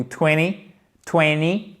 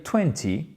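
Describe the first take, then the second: First: Twenty said as "twenny", no second T; T sauté. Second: Twenty avec le T bien prononcé, à l'anglaise; à la britannique. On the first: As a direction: drop the T after the N in twenty. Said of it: "Vous faites sauter le T". (twenty sans le T, prononcé « twenny ») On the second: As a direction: make the second T of twenty crisp, the British way. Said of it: "à l'anglais britannique, à la britannique". (twenty à la britannique, T bien articulé) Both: Shown as a demonstration.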